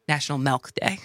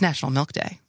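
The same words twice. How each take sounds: First: Milk is said with a local Wisconsin vowel. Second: Milk is said with the ordinary vowel.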